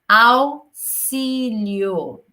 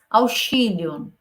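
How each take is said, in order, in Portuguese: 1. O x tem som de s duplo. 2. O x não tem som de s. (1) "o som do auxílio é como se fossem dois S's" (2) "Não falamos auxílio"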